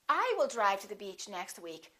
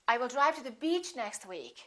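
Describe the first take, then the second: First: The stress falls on the word I. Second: The stress falls on the word beach. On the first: It is this person, not someone else, who will drive. "not he" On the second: The destination is the beach, not another place. "not to the park"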